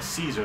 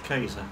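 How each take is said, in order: First: The name begins with a soft S sound. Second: The name begins with a hard K sound.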